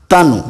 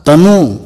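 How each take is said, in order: First: तनु said briefly, short final ु; short final vowel. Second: तनु with its last vowel stretched to ू; long final vowel. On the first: Teacher reading the word for thin, तनु said short. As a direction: end तनु on a quick vowel. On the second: Teacher reading the word for son, तनु with long ending. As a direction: stress and draw out the end of तनु. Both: Shown as a demonstration. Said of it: "उसका वाचन मैं आपको".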